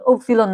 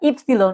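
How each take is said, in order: First: The word begins with an 'oo' vowel. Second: The word begins with an 'ee' vowel. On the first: The speaker calls it wrong. "উপসিলন না" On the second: The speaker calls it right. "কিন্তু এটা ইপসিলন"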